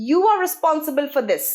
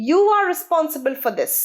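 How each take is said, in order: Both takes have the same delivery.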